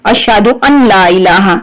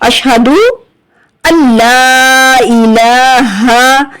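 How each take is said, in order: First: The n is pronounced separately before la. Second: The n merges fully into a doubled l. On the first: The speaker calls it wrong. "ज्यादातर बच्चे पढ़ते हैं ... तो ये पढ़ना गलत है" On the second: The speaker calls it right. "हमजा को लाम से मिलाएंगे और गुन्ना नहीं करेंगे, तो अन नहीं पढ़ेंगे, अल पढ़ेंगे"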